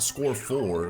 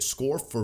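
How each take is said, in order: First: The second word is a full, stressed 'four'. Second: The second word is a light, reduced 'for'. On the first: There are only four red coins. The speaker calls it wrong. "not score four" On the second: The player is scoring for the red coins. The speaker calls it right. "That's that's how you say it"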